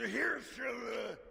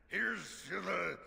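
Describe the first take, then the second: First: Much higher, louder toast; shouted toast. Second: Said in the usual way. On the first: Acted. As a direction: raise the glass and shout it. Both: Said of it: "repeats the toast louder".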